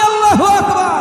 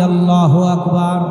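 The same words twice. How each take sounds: First: It is said more loudly. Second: It is said at normal loudness.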